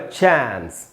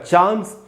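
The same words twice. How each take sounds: First: The vowel is a flat 'a' as in cat. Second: The vowel is a long open 'ah' sound. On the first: "American में हो जाएगा चांस" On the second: "British में इसका उच्चारण होगा चांस"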